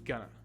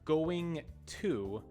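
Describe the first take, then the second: First: The words blend together and the T disappears. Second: Both words are said fully, with a clear T.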